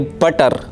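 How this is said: It has a clear British t sound.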